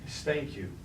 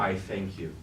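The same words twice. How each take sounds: First: "thank" stressed with a falling close. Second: "I" stressed, falling on "thank you". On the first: Megatron thanking his betrayer, leaning on "thank". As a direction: lean on "thank" and let it drop. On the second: Megatron insisting on his thanks, stressing "I". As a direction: lean on "I", then let it fall. Repeats thanks to doubting Starscream. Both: Acted.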